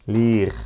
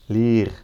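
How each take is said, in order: Both takes have the same delivery.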